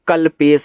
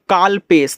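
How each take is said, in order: First: The first syllable has a short 'a' vowel. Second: The first syllable has a long 'aa' vowel. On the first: The speaker calls it right. "का पे मात्रा नहीं" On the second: The speaker calls it wrong. "अगर इसको काल पढ़ रहे हो"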